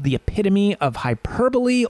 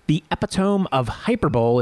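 First: The title is pronounced in the standard way. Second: The title is pronounced in the joking way.

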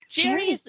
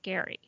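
First: The name begins with a J sound. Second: The name begins with a hard G sound. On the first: This is the usual reading of the spelling. "Jerry is the way you would normally pronounce it" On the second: This is how the man says his own name. "Says he pronounces it Gary"

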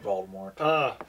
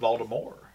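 First: The final T is clearly pronounced. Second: The final T is left silent. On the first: The speaker calls it wrong. "we've been saying that wrong" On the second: The speaker calls it right. "The T is silent"

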